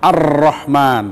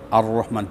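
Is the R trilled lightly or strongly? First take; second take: strongly; lightly. First: The R has a strong, full trill. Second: The R has only a light, minimal trill. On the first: The speaker calls it wrong. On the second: The speaker calls it right. "Getarannya minimal"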